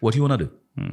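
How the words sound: It is said in a reduced American accent. "अमेरिकन"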